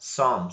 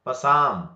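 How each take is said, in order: First: The word starts with an s sound, no p. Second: The word starts with a p sound before s. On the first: The speaker calls it right. "ಏನನ್ಬೇಕು ಇದಕ್ಕ?" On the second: The speaker calls it wrong. "Not ಪಸಾಮ್"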